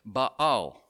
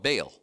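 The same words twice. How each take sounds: First: It uses a more original-sounding pronunciation. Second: It uses the familiar anglicized pronunciation. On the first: The speaker calls it right. "if you pronounce it a little bit better, although it's probably not perfect" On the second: The speaker calls it wrong. "In Sunday school, we used to call him Baal"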